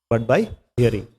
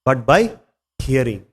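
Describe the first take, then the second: First: But by hearing echoed softly. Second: Said in the usual way. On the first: Shown as a demonstration. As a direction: repeat it softer and lower. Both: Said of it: "So Prabhupada says".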